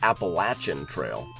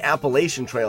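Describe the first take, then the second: First: It is said the southern regional way. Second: It is said the northern regional way. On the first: "but in the south, it's Appalachian Trail" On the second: "we call it the Appalachian Trail up here uh, in the north"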